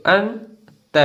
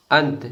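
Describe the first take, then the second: First: अंत broken into अं, pause, त; split into sounds. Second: अंत said as one short word; joined-up reading. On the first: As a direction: sound out अंत very slowly in two pieces. (अंत को अं और त में तोड़कर) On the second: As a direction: blend अं and त into अंत without a gap. (अंत को जोड़कर एक साथ) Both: Shown as a demonstration. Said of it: "इसको पढ़ेंगे".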